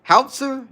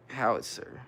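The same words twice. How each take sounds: First: High, questioning "Howitzer?", squeezed to HOWT-ser; "Howitzer?" asked high, checking how it is said; unsure pronunciation HOWITZER. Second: Low, soft try at "Howitzer", falling at the end; "Howitzer" said low and quietly, testing the word; sounding out HOWITZER. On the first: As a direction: try "Howitzer" as two syllables, HOWT-ser, pitched right up. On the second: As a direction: tentatively try "Howitzer" in three syllables, how-it-ser, under your breath. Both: Real, not acted. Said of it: "Is that how you say it?".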